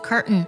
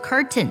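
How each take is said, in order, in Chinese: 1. t 从鼻子释放。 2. t 在后面的音之前要完整发音。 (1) "把特定音呢做个鼻音爆破" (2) "就是把那个特定音读出来"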